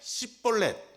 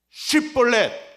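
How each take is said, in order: First: The word begins with a plain 's' sound. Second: The word begins with an 'sh' sound. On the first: The speaker is exposed as an Ephraimite. The speaker calls it wrong. "S 발음이 돼요. 쉽볼렛이 아니라 십볼렛이랍니다" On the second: This is the required password pronunciation. The speaker calls it right. "에스에이치 발음"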